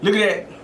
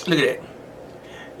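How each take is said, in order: First: Said in the usual way. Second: Whispering. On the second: Real, not acted. Admiring the steak, repeated.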